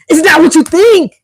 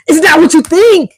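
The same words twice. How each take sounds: First: It sounds frustrated and annoyed. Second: It sounds frustrated and annoyed.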